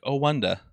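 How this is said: It is said in a mocking London accent. It imitates how someone else said it.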